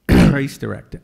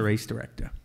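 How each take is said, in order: First: It is said clearly and audibly. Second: It is mumbled quietly and indistinctly. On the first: The speaker repeats it because the listener asked. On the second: The speaker is embarrassed about the job.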